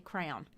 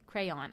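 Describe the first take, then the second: First: The word sounds like 'crown'. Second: The word does not sound like 'crown'. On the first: The speaker calls it wrong. "I say crayon ... I say crown" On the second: The speaker calls it right. "I don't say crayon"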